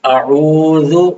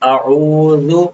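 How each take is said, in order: The two takes are said the same way.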